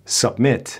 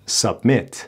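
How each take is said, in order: No difference in how they are said.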